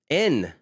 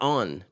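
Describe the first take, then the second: First: The vowel sounds like the 'e' in 'bed'. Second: The vowel sounds like the 'o' in 'on'. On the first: The speaker calls it right. "En, not on" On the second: The speaker calls it wrong. "not on"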